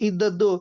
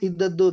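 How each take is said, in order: Both takes have the same delivery.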